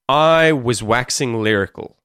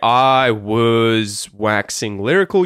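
First: The word 'was' is quick with a schwa. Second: The word 'was' is said fully and slowly. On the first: The speaker calls it right. "You sort of skip over it quickly" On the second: The speaker calls it wrong. "You don't say"

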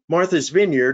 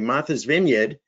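First: It is said in a general American accent. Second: It is said in a Boston accent.

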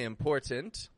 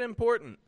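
First: Both T sounds are clearly pronounced. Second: Both T sounds are dropped. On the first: "I didn't say important" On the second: "I didn't pronounce either of them. I said important"

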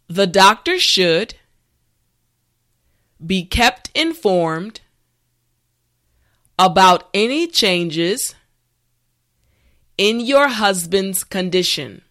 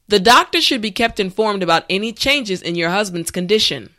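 First: The sentence is spoken slowly and carefully. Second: The sentence is spoken at a natural speed. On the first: "this time repeat after me" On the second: "the last time at a regular pace"

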